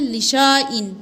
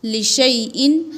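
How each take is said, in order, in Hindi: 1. 'sh' के बाद लंबा 'aa' स्वर आता है। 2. 'sh' के बाद 'ai' स्वर आता है।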